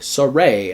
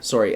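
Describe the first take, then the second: First: The name does not sound like sorry. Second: The name sounds like the word sorry. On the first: The speaker calls it right. "I listened to the voice acting and it was like Sorey" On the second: The speaker calls it wrong. "I read Sorry"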